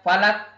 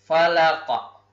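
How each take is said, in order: First: The final consonant is cut off flat. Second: The final consonant is released with a bounce. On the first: The speaker calls it wrong. "tidak boleh dibaca falak" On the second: The speaker calls it right. "tetapi cara membacanya adalah falaqa"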